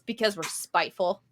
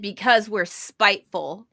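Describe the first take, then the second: First: It is said quietly. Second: It is said loudly.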